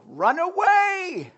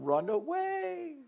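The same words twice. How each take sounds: First: High, slow comic wail of retreat; hammed-up panicked knight; mock cowardly cry. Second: High, slow, softer comic run away; softer mock retreat. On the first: Christians fleeing trouble, high drawn-out mock wail. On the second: Christians fleeing trouble, softer high drawn-out mock. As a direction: let it trail off high and soft. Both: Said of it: "That's the motto".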